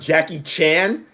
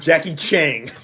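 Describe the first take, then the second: First: The name ends with a plain 'n' sound. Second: The name ends with an added 'ng' sound. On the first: The speaker calls it right. "pronunciation of Jackie Chan" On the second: The speaker calls it wrong. "and not Jackie Chang"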